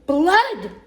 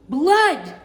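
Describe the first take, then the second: First: High, loud swooping shout; father's yell. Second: High, loud alarmed cry; mother's yell. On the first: Father sees the cut finger, loud hammed-up yell. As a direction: echo the alarm in a bigger yell. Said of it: "Loretta's father yelled". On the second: Mother sees the cut finger, loud hammed-up yell. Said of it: "Loretta's mother yelled". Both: A narrator's reading.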